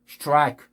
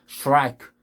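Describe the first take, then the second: The two takes are said the same way.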